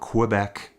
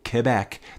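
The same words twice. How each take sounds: First: Quebec is said the Western Canadian way. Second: Quebec is said the local way. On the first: The speaker calls it wrong. "It's not Quebec. That's how I usually say it. As a Western Canadian" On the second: The speaker calls it right. "That's how you say it"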